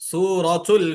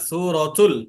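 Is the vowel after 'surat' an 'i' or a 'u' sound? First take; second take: u; u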